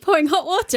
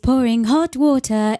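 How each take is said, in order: First: It is said in an ordinary speaking voice. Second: It is said in a dramatic TV-announcer voice.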